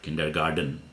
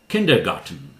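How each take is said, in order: First: The last syllable has a D sound. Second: The last syllable has a T sound. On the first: The speaker calls it wrong. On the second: The speaker calls it right. "Here it's T"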